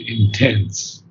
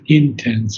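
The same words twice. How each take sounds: First: The stress is on the second syllable. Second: The stress is on the first syllable. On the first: The speaker calls it right. "the accent is on the second syllable" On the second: The speaker calls it wrong. "not intense"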